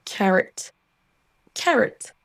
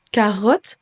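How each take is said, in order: First: CARROT stressed first, second vowel a schwa; English carrot. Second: CAROTTE in French, full O in the second syllable. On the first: Teacher modelling for French learners, English CARROT. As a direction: say English CARROT with a weak ending. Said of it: "se prononce". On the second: Teacher contrasting French with English, French CAROTTE. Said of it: "De même que". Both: Shown as a demonstration.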